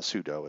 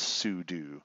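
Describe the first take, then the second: First: The word does not rhyme with voodoo. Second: The word rhymes with voodoo. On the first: The speaker calls it wrong. "it's not sudo" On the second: The speaker calls it right. "it rhymes with voodoo"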